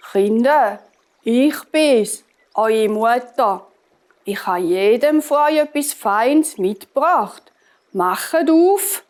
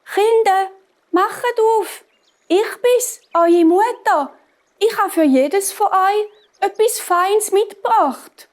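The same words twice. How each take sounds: First: Lightly voiced wolf posing as mother; a hint of the deep wolf, coaxing. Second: High, dainty fake-mother voice; wolf coaxing in a high, thin disguise; fine-voiced wolf. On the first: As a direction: call to the children in a slightly gruff wolf voice. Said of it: "Du hast ganz eine tiefe Stimme". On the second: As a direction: pitch it way up to pass as mother. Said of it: "hat er ganz eine feine Stimme bekommen". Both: A narrator's reading.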